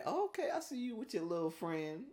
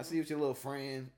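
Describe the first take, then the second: First: Approving tease. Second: Suspicious warning. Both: Shown as a demonstration. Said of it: "That's a different story than".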